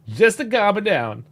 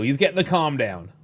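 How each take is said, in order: First: "Just" hit higher and louder, slow; slow emphatic "Just the calm down"; stress on just. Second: Said in the usual way. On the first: Shown as a demonstration. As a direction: lean on "Just" and draw the line out.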